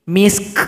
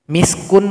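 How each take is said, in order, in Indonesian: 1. Kata ini diakhiri dengan k berhembus, beraspirasi. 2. Kata ini diakhiri dengan suku kata vokal penuh.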